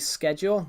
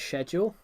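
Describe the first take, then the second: First: It is said in an American accent. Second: It is said in a British accent. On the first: "Americans say schedule" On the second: "The U K says schedule"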